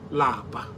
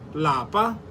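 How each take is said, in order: First: The word is said with a low tone. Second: The word is said with a high tone. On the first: It means to be tired. "Lower tone, which lapa. Lapa means to be tired" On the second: It means home. "In higher tone, lapa means home"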